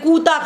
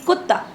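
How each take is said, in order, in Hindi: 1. पहला स्वर दीर्घ है, और त् दोहरा नहीं है। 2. पहला स्वर ह्रस्व है, और त् दोहरा है। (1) "आप कुत्ते को बोल देंगे कूता खड़ा था" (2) "उसमें कौन-सी मात्रा थी?"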